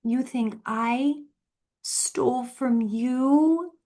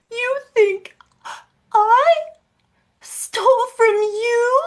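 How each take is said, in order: First: Slow, breathy, higher mock-innocent voice; mock innocence. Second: Squeaky high mock-innocent whine, much louder; shrill parody of a fake-innocent sister; mocking impression. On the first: Needling her sister with slow mock innocence. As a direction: drag it out like a fake innocent child. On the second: Mocking her sister's fake innocence in a high voice. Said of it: "The worst acting in the world".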